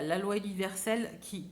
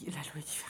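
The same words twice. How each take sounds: First: Said in the usual way. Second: Softly whispered echo; whispering. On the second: Shown as a demonstration. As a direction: whisper the phrase back to yourself. Repeats phrase, then whispers it.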